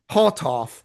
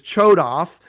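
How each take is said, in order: First: The name is said with a Hebrew pronunciation. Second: The name is said with an English pronunciation. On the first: It honors the bearer's own culture and language. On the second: It is the name's English form. "for for the English translation"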